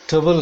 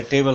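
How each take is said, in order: First: "ट्रबल" said as tuh-bul, with a weak schwa; higher, emphatic "ट्रबल" with neutral first vowel; reduced-vowel ending. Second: "टेबल" said as tay-bul, like the furniture; the rejected "टेबल", with a clear long e; full-vowel ending. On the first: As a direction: stress the correction, "ट्रबल" as a short tuh-bul. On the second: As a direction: give "टेबल" a full ay vowel as the mistaken version. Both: Shown as a demonstration. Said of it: "टेबल नहीं है".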